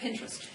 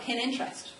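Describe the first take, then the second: First: It is said as one blended word. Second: It is said as two words, pin and interest. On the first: The speaker calls it right. "but it's just Pinterest" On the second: The speaker calls it wrong. "some people call it pin interest"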